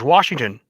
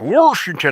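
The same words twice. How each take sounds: First: Washington is said with the standard pronunciation. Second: Washington is said with the local Eastern Washington pronunciation. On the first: The speaker calls it right. "the protect pronunciation is George Washington" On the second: The speaker calls it wrong.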